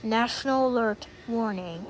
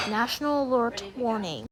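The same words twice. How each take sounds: The two takes are said the same way.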